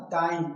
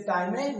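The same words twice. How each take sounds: First: टाइम in one syllable, "time"; silent final e. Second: टाइम में run together as "tai-may"; wrong final e sounded. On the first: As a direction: end टाइम on the m. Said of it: "क्या बोलना है?". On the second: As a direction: misread टाइम में as one word with a voiced final e. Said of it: "नहीं बोलना है". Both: Shown as a demonstration.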